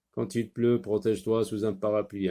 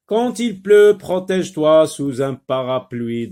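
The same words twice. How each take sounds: First: Said in the usual way. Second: Loud, high-pitched classroom reading; projected dictation voice, high start; teacher reading aloud. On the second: Shown as a demonstration. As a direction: read it out emphatically to young learners. Teacher rereads the sentence for learners.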